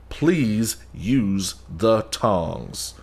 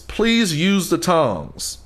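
First: Each syllable is slowly and sharply enunciated. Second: It is said at a normal, smooth pace. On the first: The speaker has lost patience and is insisting. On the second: A polite first request.

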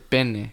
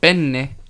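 First: The middle n sound is short and single. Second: The middle n sound is long and doubled. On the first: It means a rude word for a body part. The speaker calls it wrong. "if you pronounce penne with just penne, you're asking for dick" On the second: It means the pasta. The speaker calls it right. "make sure you pronounce it with the two N's"

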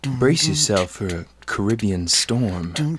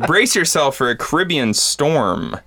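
First: It is read in a sultry, seductive voice. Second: It is read in a plain, ordinary voice.

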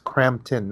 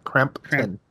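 First: The name is said without a P sound. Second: The name is said with a P sound. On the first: The speaker calls it right. "there's no P. It's Crampton" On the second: The speaker calls it wrong. "not Crampton"

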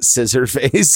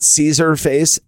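First: The name begins with the sound 'scissor'. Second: The name begins with the sound 'caesar'. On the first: "It's not scissor face" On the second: "It's not Caesar face"

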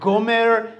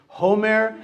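First: The name begins with a G sound. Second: The name begins with an H sound. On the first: "I go to the Russian" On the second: "I must be mispronouncing it"

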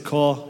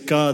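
First: It is drawn out, in a Cape Town accent. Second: It is said quickly, in the speaker's own accent.

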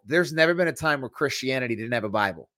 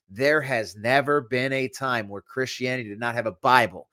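First: It is said at a normal speed. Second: It is said very slowly.

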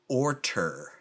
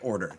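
First: The middle consonant is a hard T sound. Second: The middle consonant is a soft D sound. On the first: The word is said for emphasis. "they're trying to emphasize, and they'll say orter" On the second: The word is said normally. "the word order"

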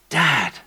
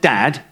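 First: The word is said in a warm, tender way. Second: The word is said in a plain, ordinary way. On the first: It expresses an intimate, loving relationship. "it's a tender, tender declaration" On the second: It is just an ordinary name for a father. "it's not just dad"

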